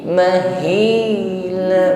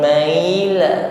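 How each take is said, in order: First: A throaty 'h' sound comes before the 'i'. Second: No 'h' sound comes before the 'i'. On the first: The speaker calls it right. "hi sampaikan pada makhrajnya aqsal halqi" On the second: The speaker calls it wrong. "bukan maila"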